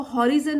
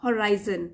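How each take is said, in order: First: "हॉरिजन" as HOR-i-zun, short i in the middle; wrong pronunciation. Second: "होराइजन" as ho-RYE-zun, long "eye" in the middle; correct pronunciation. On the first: Teacher showing what not to say, "हॉरिजन" with short i. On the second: Teacher correcting the word for students, "होराइजन" with an "eye" sound. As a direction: lean on the "राइ" in "होराइजन". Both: Shown as a demonstration. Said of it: "इसको हॉरिजन नहीं बोलेंगे".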